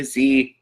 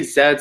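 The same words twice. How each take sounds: First: "Z" pronounced "zee", to rhyme with see; zee pronunciation. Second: "Z" pronounced "zed", to rhyme with bed; zed pronunciation. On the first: Vlogger showing viewers the other choice, "Z" said as "zee". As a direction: say "Z" as "zee", with a long ee. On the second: Vlogger showing viewers how some people name the letter, "Z" said as "zed". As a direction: say "Z" as "zed", ending in a d. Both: Shown as a demonstration. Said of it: "some people say Z".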